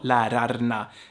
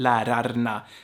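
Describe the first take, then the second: First: Every letter is pronounced clearly and separately. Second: The same.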